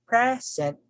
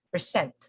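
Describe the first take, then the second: First: The stress is on the first syllable. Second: The stress is on the second syllable. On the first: It names a gift. "the present, it's referring to a gift" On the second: It names an act of showing something. "Present is a verb"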